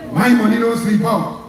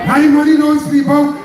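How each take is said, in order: First: Understated smug boast at normal level; a calm, lightly arrogant take on his words; lightly mocking arrogant politician; arrogant mock quote. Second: Higher, louder mock of an arrogant boast; hammed-up arrogant politician; mocking Keith Rowley. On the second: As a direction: sneer his words back at the crowd. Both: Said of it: "In the most arrogant, disrespectful style".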